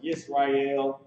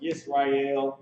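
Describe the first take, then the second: First: The name is said as three syllables, yis-ra-el. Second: The name is said as three syllables, yis-ra-el.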